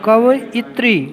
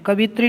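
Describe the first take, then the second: First: The word is said with four syllables. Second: The word is said with three syllables. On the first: The speaker calls it right. "कवयित्री ये उच्चारण है।" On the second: The speaker calls it wrong. "कवित्री नहीं है"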